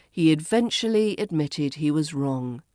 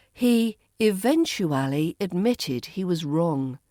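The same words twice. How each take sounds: First: "eventually" as ih-VENCH-uh-lee; reduced form. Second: "eventually" as ih-VEN-choo-AL-ee; full form. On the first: Teacher models the shortened form for learners, "eventually" as ih-VENCH-uh-lee. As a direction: squeeze out the "oo" of "eventually". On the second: Teacher models the long form for learners, "eventually" fully sounded. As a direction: sound every syllable of "eventually". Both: Shown as a demonstration. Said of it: "Eventually becomes".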